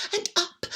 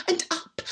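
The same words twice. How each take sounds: The two takes are said the same way.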